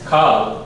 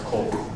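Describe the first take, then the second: First: The vowel is an open 'a' sound. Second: The vowel is an 'o' sound. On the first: The speaker calls it wrong. "you would think that it's Kal" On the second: The speaker calls it right. "but it's actually pronounced Kol"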